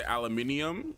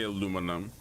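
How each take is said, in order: First: Aluminium with the extra i, al-yoo-MIN-ee-um. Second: Aluminum the American way, a-LOO-mi-num. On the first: Streamer contrasting his two pronunciations: aluminium, five syllables. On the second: Streamer contrasting his two pronunciations: aluminum, four syllables. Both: Shown as a demonstration. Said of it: "my Guyanese American accent decides".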